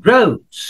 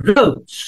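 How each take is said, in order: No difference in how they are said.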